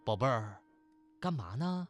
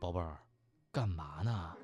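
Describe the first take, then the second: First: It is said in a plain, casual tone. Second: It is said in a more seductive tone.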